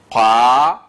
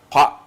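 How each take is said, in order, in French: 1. La voyelle est longue. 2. La voyelle est courte. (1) "On tire maintenant le qa à l'aide du alif" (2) "sans tirer"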